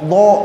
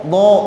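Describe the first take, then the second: First: It is said with the lips pushed forward. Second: The same.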